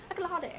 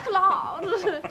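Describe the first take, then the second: First: ACCOLADE higher and softer, ending "-ah-day"; playful mispronunciation. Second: ACCOLADE drawn out very slowly, high and loud, ending "-ahd"; a long, laughing, over-fancy "accolahd" for ACCOLADE; fancy pronunciation. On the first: Player varying accolade for laughs, playfully mispronounced as "accolah-day". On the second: Player showing off another way to say accolade, fancy and drawn-out. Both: Shown as a demonstration. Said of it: "I say it differently every time".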